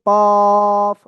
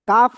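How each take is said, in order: First: The letter name is said with a heavy, full sound. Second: The letter name is said with a light, thin sound. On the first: The speaker calls it right. "এটা হলো কফ, মোটা আওয়াজে" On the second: The speaker calls it wrong. "কাফ না"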